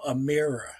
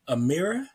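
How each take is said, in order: First: The pitch falls at the end. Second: The pitch rises at the end. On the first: The listener has understood. "if you want to let them know that you got it" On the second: The listener needs more information. "with the upward inflection"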